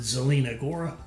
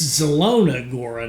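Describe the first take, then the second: First: The first word's second syllable has an 'ee' vowel. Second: The first word's second syllable has an 'oh' vowel. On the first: The speaker calls it wrong. "not Zelina Gora" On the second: The speaker calls it right. "it's Zelona Gora"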